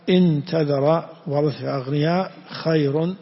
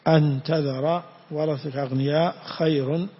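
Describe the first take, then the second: First: The first word begins with an 'i' vowel. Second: The first word begins with an 'a' vowel. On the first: The clause is the answer to a condition. "وبكسرها" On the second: The clause is the predicate of the sentence. "ضبطت بفتح الهمزة"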